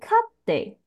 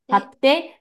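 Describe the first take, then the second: First: The pitch is high first, then falls. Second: The pitch stays level and high throughout. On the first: It means keeping an animal. "它是前高音" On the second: It means buying. "它维持高音哦"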